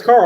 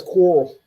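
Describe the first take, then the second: First: Said in the usual way. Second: "Coral" for Carl, rounded vowel; Southern mispronunciation. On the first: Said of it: "he can't pronounce Carl". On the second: Retold or imitated. Showing how Rick says his son's name, "Coral". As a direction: say "Coral" with an OR sound in place of Carl. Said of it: "It's always Coral".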